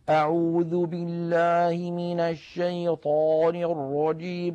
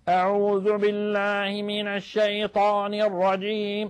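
First: It sounds mumbled, as if chewing food. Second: It sounds strained, pressed from the throat.

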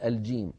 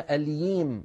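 First: The consonant is a j sound. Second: The consonant sounds like a y. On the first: The speaker calls it right. "بدل الجيم" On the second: The speaker calls it wrong. "يحرفون هذا الحرف إلى حرف الياء"

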